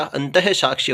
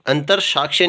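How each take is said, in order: First: अंतः साक्ष्य with "he" replacing the r; visarga form. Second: अंतर साक्ष्य with r before saakshya; r form. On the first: Teacher giving the correct form, अंतः साक्ष्य with visarga. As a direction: say अंतः साक्ष्य as "anta-he saakshye". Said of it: "होता है". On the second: Teacher showing the faulty form, अंतर साक्ष्य with r. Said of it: "नहीं होता". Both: Shown as a demonstration.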